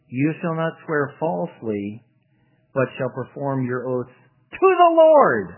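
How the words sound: The sentence is read with the emphasis deliberately shifted. Only oaths taken to the Lord must be kept. The speaker calls it wrong.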